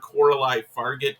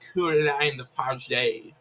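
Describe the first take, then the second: First: The surname ends with a pronounced t sound. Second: The surname ends without a t sound. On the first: The speaker calls it wrong. "I've been calling her Coralie Fargett because I'm a stupid American" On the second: The speaker calls it right. "the French pronunciation there"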